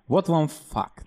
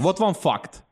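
First: The f sound is very soft and gentle. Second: The f sound is hard and aggressive. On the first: The speaker calls it right. "произносить слово «факт» с очень мягкой «ф»" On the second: The speaker calls it wrong. "Это слишком агрессивно"

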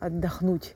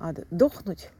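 First: The stress falls on the last syllable. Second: The stress falls on the second syllable.

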